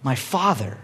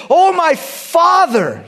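First: Low, soft acted grief; hushed, remorseful voice; grieving. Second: High, loud, drawn-out call; big acted cry, stretched long. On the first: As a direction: murmur it with regret. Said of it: "grieves what he just did". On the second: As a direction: cry out to him in anguish, slowly. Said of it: "David cries out to Saul".

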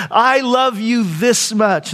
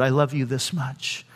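First: Slowly proclaimed, imitated motherly love; imitating mother's declaration of love. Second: Low, soft voicing of God; quiet, grave declaration of love; hushed solemn answer. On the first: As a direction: stretch it out for the children, voiced as mother. Mother answers her children lovingly. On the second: God's answer, pointing to the cross.

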